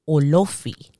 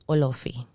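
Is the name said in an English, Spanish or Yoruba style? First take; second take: Yoruba; Spanish. First: The O sounds are strongly emphasized. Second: The name is said with a Spanish accent. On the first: "they really emphasize on those O's like Olofi" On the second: "And in Spanish, it's easy"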